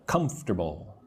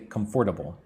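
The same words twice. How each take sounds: First: The middle syllable is dropped. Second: Every syllable is pronounced fully. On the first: The speaker calls it right. "Say comfortable" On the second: The speaker calls it wrong. "It looks like it should be comfortable, but don't say comfortable"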